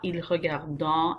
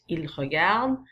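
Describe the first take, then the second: First: The final ending is pronounced aloud as a nasal vowel. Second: The final ending is silent after the last consonant. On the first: The speaker calls it wrong. "It's not il regardant" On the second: The speaker calls it right. "The ent is very silent"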